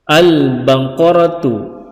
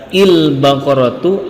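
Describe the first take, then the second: First: The word begins with an a vowel. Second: The word begins with an i vowel. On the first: The speaker calls it right. "yang benar adalah al-baqaratu" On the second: The speaker calls it wrong. "tidak boleh dibaca il-baqaratu"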